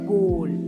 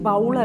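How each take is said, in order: First: The vowel rhymes with goal. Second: The vowel does not rhyme with goal. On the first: The speaker calls it right. "ഗോൾ പറയണ മാതിരി" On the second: The speaker calls it wrong. "ബൗൾ അല്ല"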